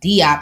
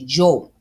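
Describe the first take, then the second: First: The name begins with a D sound. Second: The name begins with a J sound. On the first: The speaker calls it wrong. "it's not Diop" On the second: The speaker calls it right. "it's actually Jo"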